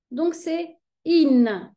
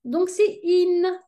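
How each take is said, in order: First: In said slowly, falling to close; slow in repeat. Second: In said slowly and higher, as a model; slow in demo. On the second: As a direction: draw out the in ending slowly. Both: Shown as a demonstration. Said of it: "va se prononcer n".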